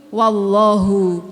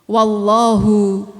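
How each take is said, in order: The two takes are said the same way.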